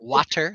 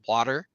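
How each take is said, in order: First: The middle consonant sounds like a T. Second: The middle consonant sounds like a D. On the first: "not water" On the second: "I can't pronounce a a T, it becomes a D"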